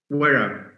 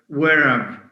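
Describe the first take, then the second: Both takes have the same delivery.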